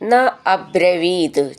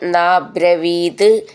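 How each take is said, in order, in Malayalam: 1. ഈ രണ്ട് വാക്കുകളും വേർതിരിച്ച്, ചേർക്കാതെ പറയുന്നു. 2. ഈ രണ്ട് വാക്കുകളും ചേർന്ന് ഒരു വാക്കായി മാറുന്നു.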